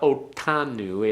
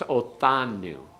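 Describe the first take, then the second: First: The middle consonant is a hard t sound. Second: The middle consonant is a soft th sound. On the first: The speaker calls it wrong. "Don't make it a real hard one. It's not otanu" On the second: The speaker calls it right. "It's like a th as in uh, thing"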